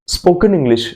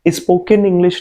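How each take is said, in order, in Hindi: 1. वाक्यांश सीधे s की आवाज़ से शुरू होता है। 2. वाक्यांश सीधे s से शुरू नहीं होता। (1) "आप यहाँ पे स्पोकन इंग्लिश सीख रहे हो" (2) "नहीं सीख रहे हो"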